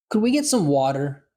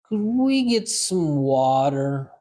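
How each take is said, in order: First: It is said at a normal conversational speed. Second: It is said slowly and deliberately. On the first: "First time, normal speed" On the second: "Second time, slow"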